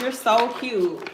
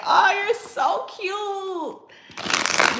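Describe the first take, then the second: First: Said in the usual way. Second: Very high, slow, laughing squeal of delight; gushing squeal. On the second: Real, not acted. Gushing to viewers about her date's text, high squeal. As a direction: melt over it with a giggle.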